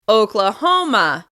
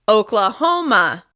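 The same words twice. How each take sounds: No difference in how they are said.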